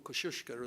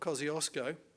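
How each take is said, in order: First: The name is pronounced the Polish way. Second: The name is pronounced the anglicized English way.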